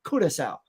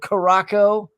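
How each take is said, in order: First: The word is said as 'Curacao', ending in 'cao'. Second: The word is said as 'Caraco', ending in 'co'. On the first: The speaker calls it right. "as I was quickly corrected by the tour guide. She goes" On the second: The speaker calls it wrong. "which I read as, you know, Caraco. It is not Caraco"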